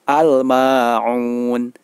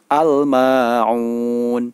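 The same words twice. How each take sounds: First: The 'l' is heard clearly before the 'm'. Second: The 'l' is heard clearly before the 'm'.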